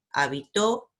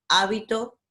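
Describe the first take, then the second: First: Habitó with a strong TÓ at the end; final-syllable stress. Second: Hábito with a high, strong HÁ; first-syllable stress. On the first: Teacher contrasting the same word, final stress on habitó. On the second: Teacher contrasting the same word, first-syllable stress on hábito. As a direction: punch the start of hábito, then fall away. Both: Shown as a demonstration. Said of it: "se elige la misma palabra".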